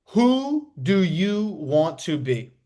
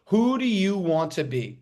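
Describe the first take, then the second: First: Slow emphasis. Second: Said in the usual way. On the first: Shown as a demonstration.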